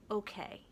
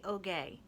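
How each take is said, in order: First: Said in the usual way. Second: Ogay, like okay but with a g; rhymes with okay. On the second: Shown as a demonstration. Reader shows that Ogay rhymes with okay. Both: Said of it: "it rhymes with".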